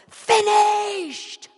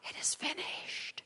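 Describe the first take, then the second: First: It is cried out in a loud voice. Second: It is said quietly and calmly.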